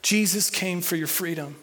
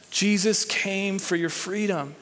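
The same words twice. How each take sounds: First: Telling a neighbour. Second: Said in the usual way. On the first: Shown as a demonstration. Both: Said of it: "Tell someone next to you".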